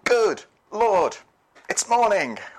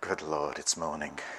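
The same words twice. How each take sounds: First: It is said in a cheerful, grateful tone. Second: It is said in a weary, dreading tone. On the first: The new day is welcomed. "instead of saying" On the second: The day is expected to go badly. "Because we just know it's not going to be a good day"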